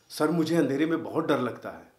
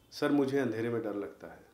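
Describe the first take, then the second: First: It is said with strong, intense feeling. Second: It is said plainly, without much intensity.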